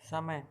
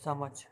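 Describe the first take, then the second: First: The final consonant is a y sound. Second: The final consonant is a j sound. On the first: The speaker calls it right. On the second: The speaker calls it wrong. "ना कि समझ"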